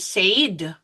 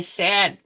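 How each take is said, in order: First: The vowel is a long 'ay' sound. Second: The vowel is a short 'e' sound. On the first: The speaker calls it wrong. "we do not say said" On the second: The speaker calls it right. "but we say said. It's like a cut word like a, ed"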